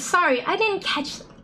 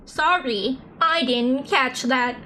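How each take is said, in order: First: It is said in a plain, normal voice. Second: It is said in a put-on robotic voice.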